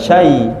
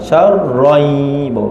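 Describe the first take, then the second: First: The R sound is dropped from the word. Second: The R sound is clearly pronounced in the word. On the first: The speaker calls it wrong. "bukan syai" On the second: The speaker calls it right. "masuk syar, masuk roh"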